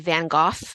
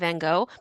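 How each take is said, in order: First: The name is said with Dutch pronunciation. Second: The name is said with English pronunciation. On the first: "were I a Dutch speaker, I would say Van Gogh" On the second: "and not Van Gogh"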